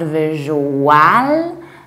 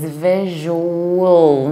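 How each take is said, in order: First: The ending is full and drawn out. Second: The ending is reduced and short. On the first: The speaker calls it wrong. "not visual" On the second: The speaker calls it right. "you need to reduce the ending"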